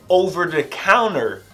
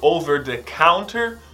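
First: The T in counter is dropped. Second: The T in counter is clearly pronounced.

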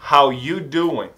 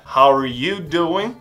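First: The word 'are' is dropped entirely. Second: The word 'are' is clearly pronounced.

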